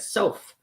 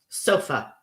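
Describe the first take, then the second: First: The word ends without the final uh vowel. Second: The word ends with a soft uh vowel. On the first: The speaker calls it wrong. "if we just said soph, it we wouldn't know what we're talking about" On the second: The speaker calls it right. "That uh at the end is unstressed"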